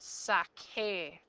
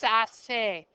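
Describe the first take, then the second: First: The middle consonant is a hard k sound. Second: The middle consonant is a soft s sound. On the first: The speaker calls it right. "sakar has a hard C in it" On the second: The speaker calls it wrong. "here it has a soft C"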